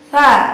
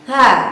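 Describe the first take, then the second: The two takes are said the same way.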